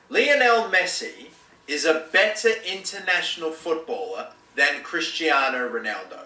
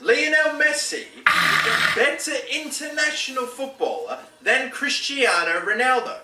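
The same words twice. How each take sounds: First: It is said in a plain, neutral way. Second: It is said with forceful, chest-out confidence.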